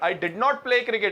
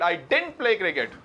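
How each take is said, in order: First: Did and not are said as two full words. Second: Did and not merge into one contracted word. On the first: The statement is emphatic. "डिड नॉट जब बोला जाता है जब बात पे जोर दिया जाए" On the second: It is ordinary, neutral speech. "अगर नॉर्मल बात हो रही है"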